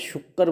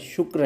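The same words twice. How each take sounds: First: The word is said in the colloquial way. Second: The word is said in the original way. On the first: The speaker calls it wrong. "मैं यहाँ पे शुक्र बोल रहा हूँ" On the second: The speaker calls it right. "Original शब्द क्या है, शुक्र है"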